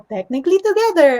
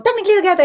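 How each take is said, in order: First: The phrase is said slowly and carefully enunciated. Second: The phrase is said quickly and run together. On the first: "you keep on doing it slow" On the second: "I keep on doing it fast"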